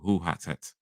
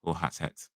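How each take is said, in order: First: The first word rhymes with English 'too'. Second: The same.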